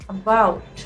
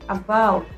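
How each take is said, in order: Both takes have the same delivery.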